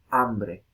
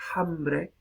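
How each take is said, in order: First: The word begins directly with the vowel. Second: The word begins with an aspirated h sound. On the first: This is the modern pronunciation. "esta aspiración desaparece, se elide y tenemos... simplemente" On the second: This is the older medieval pronunciation. "en vez de"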